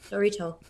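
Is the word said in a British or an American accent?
American. It is said in the speaker's own American accent.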